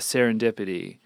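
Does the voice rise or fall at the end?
fall. It is said flatly, falling at the end.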